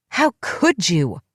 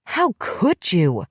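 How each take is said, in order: First: Slow, drawn-out furious cry; screamed. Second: Slow, pleading furious cry; shaking her by the shoulders, repeating it; screamed again. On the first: Lunging at the woman who betrayed her, screamed. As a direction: hurl the words at her, each one dragged. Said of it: "I screamed". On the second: Shaking her friend, a slow repeated anguished cry. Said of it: "It was all I could say over and over again". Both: Acted.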